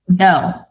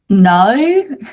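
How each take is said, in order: First: It is said in the speaker's own accent. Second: It imitates the other speaker's accent.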